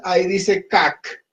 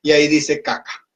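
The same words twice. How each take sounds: First: Cac said clipped, with no final vowel; plain. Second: Caca said with the A sounded at the end; plain. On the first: Teacher showing the word missing its final A. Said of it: "Si aquí no pongo la A al final". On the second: Teacher showing the word with the final A added. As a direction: finish the word with a clear A. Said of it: "Para que diga caca". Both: Shown as a demonstration.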